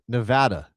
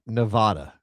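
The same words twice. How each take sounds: First: The stressed A sounds like the A in apple. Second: The stressed A does not sound like apple. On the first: The speaker calls it right. "the A is like Apple" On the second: The speaker calls it wrong. "not Nevada"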